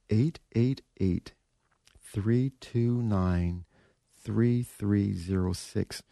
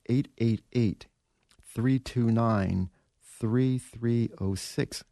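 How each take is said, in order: First: The number is said more slowly. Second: The number is said at normal speed.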